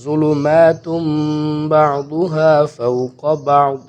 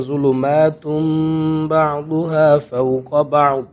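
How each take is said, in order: First: Slow melodic chant; Quran recitation. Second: ظلمات read straight into بعضها, slow chant; joined recitation. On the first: Teacher recites the next phrase for students, slow chant. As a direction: recite بعضها فوق بعض slowly. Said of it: "اب یہ ظلمات". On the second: Teacher repeats the phrase joined together, slow chant. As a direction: carry ظلمات into بعضها without a break. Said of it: "اس کو بھی ہم ساتھ میں ہی پڑھیں گے". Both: Shown as a demonstration.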